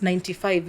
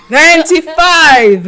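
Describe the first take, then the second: First: Hushed, low and understated; quiet, low-key answer; said softly. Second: Loud, high, drawn-out exclamation; big stretched-out proclamation, laughing; loud, emphatic. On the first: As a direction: say it small and low, barely putting it out. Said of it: "You're saying it so slowly". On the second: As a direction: belt it out slowly with a laugh. Repeats louder after being teased. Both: Real, not acted.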